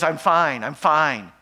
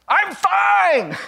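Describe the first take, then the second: First: Said in the usual way. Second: Sudden high, loud outburst; "I'm fine!" yelled much higher and louder; shouting. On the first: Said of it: "And she says". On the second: Retold or imitated. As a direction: blow up on the last one. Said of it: "And then she shouts".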